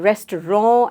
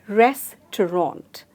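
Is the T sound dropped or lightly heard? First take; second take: dropped; lightly heard. First: The T sound is left out. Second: A very slight T sound is heard. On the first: The speaker calls it wrong. "they forget the T behind" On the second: The speaker calls it right. "a very slight sound of the T"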